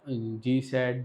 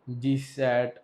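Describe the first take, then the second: First: Said in the usual way. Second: GSAT stretched slow, each syllable held; slow teacher emphasis on GSAT; drawn-out name. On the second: Shown as a demonstration. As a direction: spell out GSAT slowly for the class. Teacher repeats satellite name.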